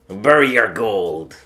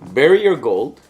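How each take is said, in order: First: It is said in a put-on pirate voice. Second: It is read out in a normal voice.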